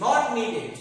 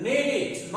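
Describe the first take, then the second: First: "needed" as "nee-ded", said loudly; wrong -ed ending. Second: "Needed" as "nee-did", pitched higher; short i in the end of "Needed"; correct -id ending. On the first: Teacher rejects the mistake, "needed" with -ded. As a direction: open e in the end of "needed". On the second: Teacher models the right form, "Needed" with -did. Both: Shown as a demonstration.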